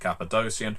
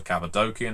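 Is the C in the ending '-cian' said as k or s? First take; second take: s; k. First: The C before the ending sounds like s. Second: The C before the ending sounds like k. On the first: "instead of Cappadocian" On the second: "or Cappadocian ... there's no soft C"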